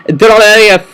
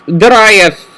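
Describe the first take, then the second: No difference in how they are said.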